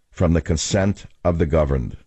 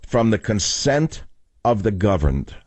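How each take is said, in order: First: Lower, falling back on from the consent of the governed; lower, settling repeat. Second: Slow, each word weighed, consent leaned on; slow, weighty repeat. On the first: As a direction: let the phrase sink low and settle. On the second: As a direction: lay out From the consent of the governed slowly. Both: Shown as a demonstration. Repeating the founding phrase.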